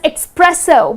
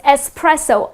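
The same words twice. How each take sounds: First: The first syllable has an x sound. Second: The first syllable has a plain s sound. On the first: The speaker calls it wrong. "Many people tend to say it as espresso, but it's not espresso. It doesn't have X in the spelling" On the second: The speaker calls it right. "The correct pronunciation is just the way it is spelled"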